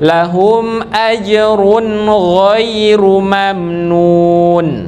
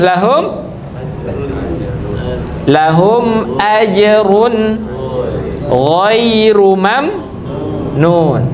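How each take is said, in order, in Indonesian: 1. Huruf m akhir di lahum berhenti tanpa gema. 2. Huruf m akhir di lahum memantul dengan gema. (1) "Gimana cara baca yang betul? ... Tidak ada pantulan" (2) "Sering dibaca nih"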